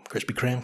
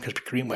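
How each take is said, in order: First: "Kreme" said as "Kram", rhyming with jam; Krispy "Kreme" with a short flat a, like "cram"; own pronunciation. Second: "Kreme" said as "Kreem", rhyming with cream; Krispy "Kreme" with a long ee, like "cream"; other pronunciation. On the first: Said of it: "Krispy Kreme is how I pronounce it". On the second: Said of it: "I don't know what you wanna call it". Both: Shown as a demonstration.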